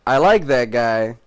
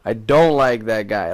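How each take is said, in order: First: LIKE stretched out and punched; stress on LIKE. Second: DON'T stretched out and punched; stress on DON'T. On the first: Viewer picking favorites among cast, stress on LIKE. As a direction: lean slowly on "like", pitch rising then falling. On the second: Viewer rejecting a cast member, stress on DON'T. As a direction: lean slowly on "don't" to reverse it. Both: Acted. Contrasting likes and dislikes of cast.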